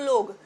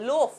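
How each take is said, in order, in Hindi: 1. शब्द का अंत g की ध्वनि से होता है। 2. शब्द का अंत f की ध्वनि से होता है। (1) "इसको ऐसा नहीं बोलना कि एक लोग दो लोग" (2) "लोफ है"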